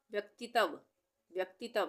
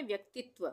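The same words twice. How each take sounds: First: व्यक्तित्व misread as व्यक्तितव, full त and final व; wrong reading with full त. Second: व्यक्तित्व with doubled त running into व, व्यक्तित्-त्व; correct half-त reading. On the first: Teacher showing what a full त would give, व्यक्तित्व misread as व्यक्तितव. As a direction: say व्यक्तित्व as व्यक्ति-तव, no त्व cluster. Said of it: "तो हम व्यक्तित्व तो नहीं बोलते हैं ना". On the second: Teacher giving the form we really say, व्यक्तित्व with half त before व. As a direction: join त and व in one cluster at the end of व्यक्तित्व. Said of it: "हम बोलते हैं".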